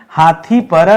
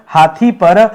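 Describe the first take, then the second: No difference in how they are said.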